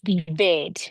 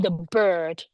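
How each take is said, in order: First: The vowel is the short 'e' sound. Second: The vowel is the long 'er' sound. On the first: The speaker calls it wrong. "not the bed" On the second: The speaker calls it right. "So I'm doing er. I'm saying the bird"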